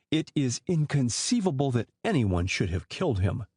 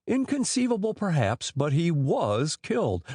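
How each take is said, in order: First: Said in the usual way. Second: Grim. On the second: A narrator's reading. Inspector rebutting suspect's claim, grim retort. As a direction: echo his word, then lay down the fact grimly. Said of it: "responded Mitchell grimly".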